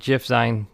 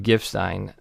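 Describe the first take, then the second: First: It begins with a soft G sound. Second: It begins with a hard G sound. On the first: "some of you might pronounce it" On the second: "I pronounce GIF with a hard G"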